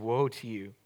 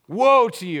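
First: It sounds sad and disappointed. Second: It sounds cruel and accusing.

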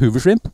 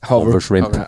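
First: The first word is said like hoover. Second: The first word is said like hover. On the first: The fly is named after a vacuum cleaner. The speaker calls it wrong. "det er Hoover Shrimp" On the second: The fly is named for hovering in the water. The speaker calls it right. "men det er egentlig Hover Shrimp"

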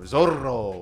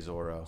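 First: The R sound is rolled with a trill. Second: The R sound is plain without a trill. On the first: "Shouldn't it be Zorro or Zorro?" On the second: "they don't roll those R's though"

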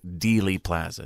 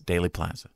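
First: The first vowel sounds like 'ee'. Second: The first vowel sounds like 'ay'. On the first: The speaker calls it wrong. "Nobody says Dealey Plaza" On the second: The speaker calls it right. "It's Daily Plaza"

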